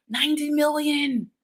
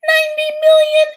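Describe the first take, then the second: First: Quieter, stated plainly; soft statement. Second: High, loud squeal of amazement; amazed shout. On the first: Host telling viewers the vote count, softly. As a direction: let the number land softly. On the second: Host marveling at the vote count, loud and high. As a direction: shout it like you can't believe it. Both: Shown as a demonstration.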